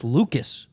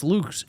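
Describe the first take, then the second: First: "Lucas" in two syllables, LOO-kus; corrected pronunciation. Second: "Lukes" as one syllable; wrong pronunciation. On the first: Co-host correcting a player's surname, "Lucas" said as two syllables. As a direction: say "Lucas" with a long oo, then a short second syllable. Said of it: "It's pronounced Lucas". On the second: Co-host quoting the mistaken way to say a player's name, "Lukes" in one syllable. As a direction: say "Lukes" as a single beat, LOOKS with a long oo. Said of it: "is not pronounced Lukes". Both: Shown as a demonstration.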